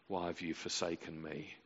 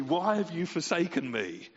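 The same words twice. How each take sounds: First: 1 hushed lament. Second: 1 mock anguished cry. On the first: Retold or imitated. True quote of Jesus on cross. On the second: Contrasted wrong quote of the cross.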